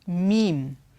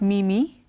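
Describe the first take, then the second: First: It is said as one syllable. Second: It is said as two syllables. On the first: The speaker calls it right. "it's meme" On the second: The speaker calls it wrong. "it's not mimi"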